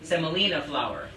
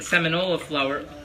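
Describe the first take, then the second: First: The word is pronounced seh-moh-LEE-nah. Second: The word is pronounced seh-mih-NOH-lah. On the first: The speaker calls it right. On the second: The speaker calls it wrong.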